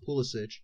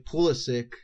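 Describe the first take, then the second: First: The name is said in a non-American way. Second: The name is said in an American way. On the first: The speaker calls it right. "I've been very adamant that his name is pronounced Pulisic" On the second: The speaker calls it wrong. "stupid Americans say Pulisic"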